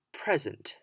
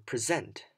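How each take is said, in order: First: "present" as PREZ-ent; stress on first syllable. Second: "present" as pre-ZENT; stress on second syllable. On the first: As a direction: punch the first syllable of "present", PRE-sent. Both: Shown as a demonstration. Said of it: "stressing different parts of the same word".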